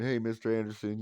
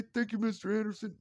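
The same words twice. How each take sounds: First: Said in the usual way. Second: Put-on high cheerful child's thanks; kid voice. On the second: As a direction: chirp it like a small boy.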